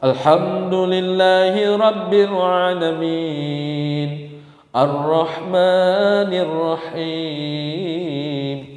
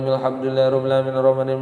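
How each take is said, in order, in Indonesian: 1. Dibaca pelan dan penuh kehati-hatian. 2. Dibaca sangat cepat, bunyi-bunyinya dihilangkan. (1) "bacaan Quran tuh tartil" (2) "sepuluh menit bisa dua puluh tiga rakaat"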